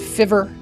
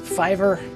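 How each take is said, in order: First: The first vowel is short, as in give. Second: The first vowel is long, as in five. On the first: The speaker calls it wrong. "I don't think I pronounced it correctly" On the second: The speaker calls it right. "I think it was called Fiver"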